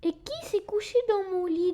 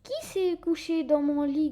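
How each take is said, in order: First: It is said in a small baby bear voice. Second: It is growled in a deep papa bear voice.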